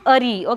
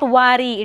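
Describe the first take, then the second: First: The ending begins with a vowel sound. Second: The ending begins with a w sound. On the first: The speaker calls it right. "It is Ari" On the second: The speaker calls it wrong. "It is not Wari"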